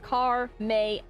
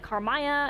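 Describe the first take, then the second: First: The name sounds like 'car' plus 'May'. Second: The name does not end like 'May'. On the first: The speaker calls it right. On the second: The speaker calls it wrong.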